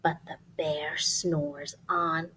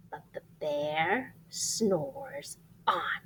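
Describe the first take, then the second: First: Slow breathy hush of the refrain; soft slow whispered refrain. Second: Whisper. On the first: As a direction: keep it secret so the bear sleeps. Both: Acted. Refrain whispered over sleeping bear.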